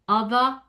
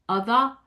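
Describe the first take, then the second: Both takes have the same delivery.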